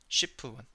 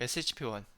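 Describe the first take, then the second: First: SHP is said as one single word. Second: SHP is said as three separate letters. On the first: The speaker calls it wrong. "쉬프라 그러면 안 되고" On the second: The speaker calls it right.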